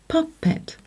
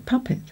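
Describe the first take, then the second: First: Each letter sound is given its full value. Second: It is said the usual everyday way. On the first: The speaker calls it wrong. "when blended, would say puppet" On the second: The speaker calls it right. "but we usually say puppet"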